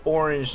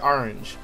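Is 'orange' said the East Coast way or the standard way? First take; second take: standard; East Coast. First: Orange is said with the standard vowels. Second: Orange is said with an East Coast vowel. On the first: The speaker calls it right. "I don't say orange normally" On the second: The speaker calls it wrong. "I say orange. ... that's like an East Coast thing"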